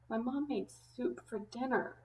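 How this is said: The voice sounds sad and upset. The person really doesn't want the soup. "If I was sad about it"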